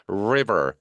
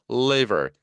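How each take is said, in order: First: "river" with a drawn, low R at the start; clear English R. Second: "liver" with a distinct held L at the start; clear English L. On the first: Teacher contrasting two words for learners, clear R in "river". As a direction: say "river" with a full English R, never an L. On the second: Teacher contrasting two words for learners, clear L in "liver". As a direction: say "liver" with a full L, never an R. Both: Shown as a demonstration. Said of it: "river하고 liver은 다르죠".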